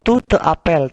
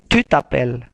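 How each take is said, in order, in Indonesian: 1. Vokal pada 'te' diucapkan penuh. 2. Vokal pada 'te' dihilangkan dan digabung. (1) "bukan tu te appelle" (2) "tapi tu t'appelles"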